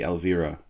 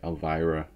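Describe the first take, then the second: First: The name is pronounced the Hungarian way. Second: The name is pronounced the American way. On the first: "In Hungary, it would be Elvira" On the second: "in America, we always say like Elvira"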